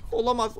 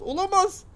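First: Said in the usual way. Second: Much higher disbelieving olamaz; high dismayed cry. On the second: Real, not acted. Gamer watching the key fail, high dismayed cry.

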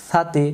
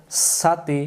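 First: সাতি begun with a soft th from the tongue tip. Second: সাতি begun with a sharp, whistling s; hissed s. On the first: Teacher models the letter from the tongue tip, সাতি with soft th. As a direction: say সাতি with a lisped th, not a hissed s. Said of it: "এটা জিব্বার আগা থেকে". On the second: Teacher shows the mistake that turns it into sin, সাতি with hissed s. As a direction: say সাতি with a plain hissing sin sound. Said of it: "তাহলে সিন অক্ষর এটা হয়ে যাবে". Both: Shown as a demonstration.

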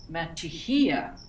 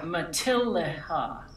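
First: Matijia with a Y glide instead of L; old wrong pronunciation. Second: Matilaha with the L sounded clearly; correct pronunciation. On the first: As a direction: slowly say "matijia" as if it were Spanish. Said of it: "I used to say it". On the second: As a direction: demonstrate "Matilaha" with a spoken L and final "ha". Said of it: "pronounce it". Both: Shown as a demonstration.

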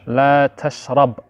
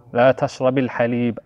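First: تشرب ends on a bare b, la tashrab; لا تشرب with no vowel after the b; sukoon ending. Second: تشرب takes a kasra into الحليب, la tashrabi l-halib; لا تشربِ الحليب with a linking i. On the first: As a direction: stop dead on the b of تشرب with sukoon. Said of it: "With a sukoon". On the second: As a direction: slide the b of تشرب onto i before الحليب. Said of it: "if halib comes after it, we'll pronounce it as". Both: Shown as a demonstration.

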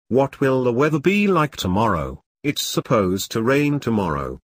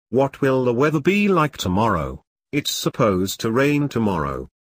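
The two takes are said the same way.

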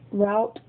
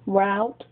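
The two takes are said the same way.

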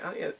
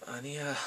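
First: Higher, quick little denial; acted quick denial. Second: Soft, understated denial; acted denial. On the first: She answers the father's dating question, quick denial. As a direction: deny it lightly and fast. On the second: Answering the father's question about dating, quiet denial. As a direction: brush it off quietly.

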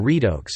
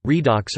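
First: Redox said REE-dohks; alternative pronunciation. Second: Redox said REE-doks; first pronunciation. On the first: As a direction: say "redox" with a long o, as in "oak". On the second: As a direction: say "redox" with a short open o, as in "ox". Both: Shown as a demonstration. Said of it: "pronunciation, redox or redox".

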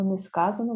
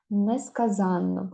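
First: Не сказано stressed on "ска", "за" unstressed; stress on the root. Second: Несказанно with the stress on "зан"; stress on the suffix. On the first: Teacher contrasting the spelling with one н, stress on "ска" in не сказано. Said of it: "якщо не падає". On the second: Teacher showing the spelling with two н, stress on "зан" in Несказанно. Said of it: "якщо наголос падає на суфікс". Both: Shown as a demonstration.

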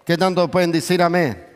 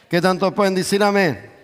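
No difference in how they are said.

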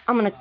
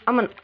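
No difference in how they are said.

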